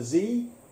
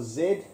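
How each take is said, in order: First: The letter is said the American way, zee. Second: The letter is said the non-American way, zed.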